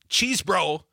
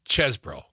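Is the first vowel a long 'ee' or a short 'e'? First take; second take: long ee; short e. First: The first vowel is a long 'ee' sound. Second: The first vowel is a short 'e' sound. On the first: The speaker calls it wrong. "It's not cheese bro" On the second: The speaker calls it right. "it's chesbro"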